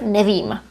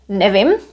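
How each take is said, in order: First: The final vowel is held long. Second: The final vowel is short. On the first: This is the standard form. "instead of nevím" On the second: This is informal speech. "it's very common to say nevím"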